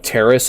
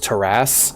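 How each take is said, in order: First: It is said with a plain English pronunciation. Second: It is said with a French-style pronunciation.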